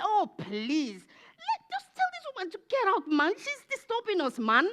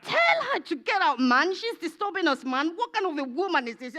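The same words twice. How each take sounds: First: Very high, whiny complaining voice; high-pitched mock exasperation; annoyed disciples. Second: Mock-irritated demand, high then dropping on "man"; hammed-up pestered grumbling; annoyed disciples. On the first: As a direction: squeal it like a pestered follower. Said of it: "The disciples said". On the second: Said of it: "Let me speak like".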